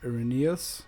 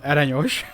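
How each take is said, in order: First: The name is pronounced with English sounds. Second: The name is pronounced with Hungarian sounds. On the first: "I guess it's Irenaeus" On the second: "I'm gonna pronounce that name in Hungarian for funsies"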